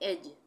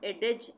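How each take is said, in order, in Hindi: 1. j से पहले कोई d ध्वनि सुनाई नहीं देती। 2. j से पहले एक अतिरिक्त d ध्वनि सुनाई देती है। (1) "इसको हम पढ़ेंगे एज" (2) "एडेज इस तरह से नहीं पढ़ेंगे"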